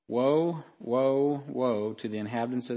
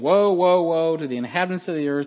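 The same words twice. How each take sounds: First: It is said in a quiet, subdued way. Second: It is said in a lively, animated way. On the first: The speaker calls it wrong. "notice I'm saying that way too, like, subdued" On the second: The speaker calls it right. "I'd be very animated"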